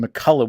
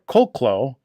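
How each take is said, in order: First: The name begins with a 'Mac' sound. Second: The name begins with a 'Col' sound. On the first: The speaker calls it wrong. "which is completely and totally wrong" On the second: The speaker calls it right. "It's Colclough"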